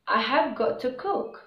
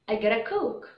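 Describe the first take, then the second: First: It is said carefully with every word full. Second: It is said fast with words run together.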